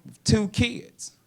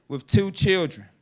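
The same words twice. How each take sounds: First: Put-on slow rising "two" in "with two kids"; stress on two. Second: Put-on "two" in "with two children" hit and falling; stress on two. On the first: Comic stretching "two kids" for the crowd, slow rising stress. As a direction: lean on "two" and let it rise slowly. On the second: Comic repeating for the crowd, "two" punched with a falling end. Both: Shown as a demonstration. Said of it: "Ten hours in the car".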